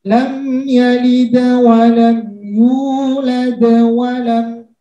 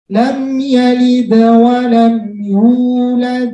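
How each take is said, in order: First: It runs on into the next words. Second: It stops after the final word. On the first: "Saya lanjutkan tetap mantul" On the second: "Saya berhenti"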